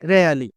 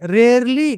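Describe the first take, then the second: First: The r sound before l is silent. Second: The r sound before l is pronounced. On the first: The speaker calls it right. "ఆర్ silent అండి" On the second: The speaker calls it wrong.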